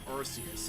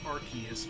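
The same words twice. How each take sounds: First: The name is said the Japanese way. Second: The name is said the American way. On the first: This follows the original version. The speaker calls it right. "I'm going with the Japanese pronunciation" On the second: This follows the localized version. The speaker calls it wrong. "in America speak it's pronounced"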